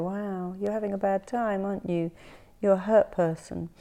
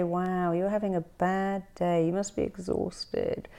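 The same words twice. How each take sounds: First: Soothing sympathy. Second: Sympathetic. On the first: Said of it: "instead of you getting hostile". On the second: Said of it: "when you say". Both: Retold or imitated.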